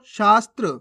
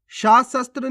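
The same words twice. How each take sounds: First: शास्त्र as shaas-tra; स run straight into त्र in शास्त्र; half-letter pronunciation. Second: शास्त्र शस्त्र as shaa-sa-tra; vowel after स in शास्त्र शस्त्र; full-letter misreading. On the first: Teacher shows the right reading, शास्त्र with half स. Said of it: "कैसे पढ़ेंगे". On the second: Teacher warns learners, शास्त्र शस्त्र with full स. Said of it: "नहीं पढ़ना आपको". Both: Shown as a demonstration.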